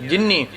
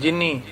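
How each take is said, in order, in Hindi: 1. न की ध्वनि लंबी खिंची हुई, दोहरी है। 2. न की ध्वनि छोटी और एकल है। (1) "जिवें असीं बोलते हैं" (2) "ਜਿਨੀ ਬੋਲਾਂਗੇ"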